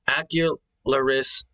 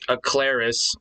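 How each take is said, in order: First: The name is said with four syllables. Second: The name is said with three syllables. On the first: The speaker calls it wrong. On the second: The speaker calls it right.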